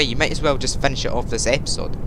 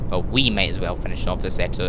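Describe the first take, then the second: First: Said in the usual way. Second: We leaned on in self-correction; we stressed, rest said lower. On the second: Shown as a demonstration. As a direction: hit the word we to put it on yourself. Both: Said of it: "It's not you, it's me".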